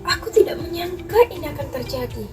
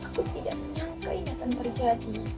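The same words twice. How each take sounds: First: It is said in a surprised, shocked tone. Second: It is said in a sad, downcast tone. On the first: "intonasi seperti dengan nada kaget" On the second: "dengan nada sedih"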